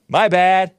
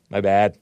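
First: Louder and higher. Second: Said in the usual way. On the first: Real, not acted. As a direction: exclaim it loudly. Repeats apology, second louder.

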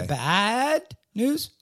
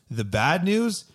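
First: The bad news? slow, news lifted into a question; slow high question. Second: Bad news asked with a rising lift on news; rising question tune. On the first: Host demonstrating the inflection slowly. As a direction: stretch it and rise on news. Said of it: "inflection in my voice". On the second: Cohost reading the question, rising on news. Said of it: "You didn't hear the inflection in my voice?". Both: Shown as a demonstration.

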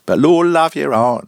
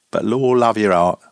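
First: Higher and louder Lord love your heart; louder retake. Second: Said in the usual way. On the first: Shown as a demonstration. Reader tries the keeper's exclamation with more force. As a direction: punch "Lord" hard and high. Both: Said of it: "repeated takes".

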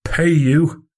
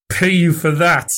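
First: A thin, hollow, hoarse question, pitched higher; barely find your voice, stunned; hollow ghost of his own voice; ghostly hoarse voice. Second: Hollow, higher and strained, "Pay you for that?" pushed out in disbelief; a strange, unfamiliar voice; ghostly hoarse voice. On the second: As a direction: croak it out, appalled at the idea. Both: A narrator's reading. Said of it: "Fettes found a voice, the ghost of his own".

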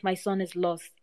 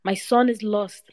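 First: Softer, broken repeat of the cry; grieving echo. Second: Slow, higher, louder cry of a grieving father; first cry of loss, slow and raised; anguished cry. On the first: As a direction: let the words sink into despair. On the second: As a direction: wail it out as he realises his son is gone. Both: A narrator's reading. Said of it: "Then he cried".

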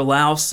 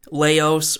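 First: Laos said as LOWSS; one-syllable pronunciation. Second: Laos said as LAY-ohss; two-syllable pronunciation. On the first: Host offering listeners the other option, Laos as LOWSS. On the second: Host offering listeners one option, Laos in two syllables, LAY-ohss. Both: Shown as a demonstration. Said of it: "depending on how you want to pronounce it".

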